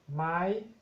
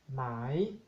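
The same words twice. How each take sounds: First: It is said on a high tone. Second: It is said on a rising tone. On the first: It marks a question. "Tono alto" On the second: It means silk. "Tono creciente"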